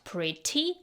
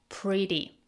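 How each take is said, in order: First: The middle T is a crisp, clear T sound. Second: The middle T is a soft D-like flap. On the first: The speaker calls it wrong. "not pretty" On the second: The speaker calls it right. "The T sounds like a soft D, flap T"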